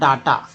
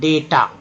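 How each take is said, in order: First: The first vowel sounds like 'ah'. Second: The first vowel sounds like 'ay'. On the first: The speaker calls it wrong. "डाटा नहीं पढ़ेंगे, डाटा बोलता है लोग" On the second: The speaker calls it right. "पहला ए जो है ए के रूप में"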